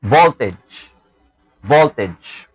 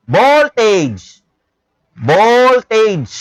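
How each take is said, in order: First: Voltage with a clear v start, lower and slow; correct voltage. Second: Voltage said with a B, bolted͡ʒ; the mispronounced Voltage, b for v; wrong voltage. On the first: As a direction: model Voltage with a crisp v. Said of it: "Pronounce this as". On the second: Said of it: "Do not pronounce it as voltage". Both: Shown as a demonstration.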